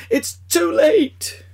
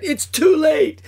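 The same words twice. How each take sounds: First: Much higher, louder, slow wail; drawn-out agonized wail. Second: Much higher, louder scream of despair; agonized scream. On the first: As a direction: stretch the scream out in despair. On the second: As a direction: scream it in anguish, rushing out. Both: Acted. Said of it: "Screaming in agony".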